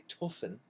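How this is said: It is pronounced with a German accent. "In Germany, it would actually be Beethoven"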